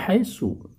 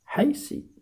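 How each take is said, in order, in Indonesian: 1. Kata itu diakhiri dengan vokal u. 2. Kata itu diakhiri dengan vokal i. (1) "tetap dibaca haitsu" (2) "tidak boleh dibaca haisi"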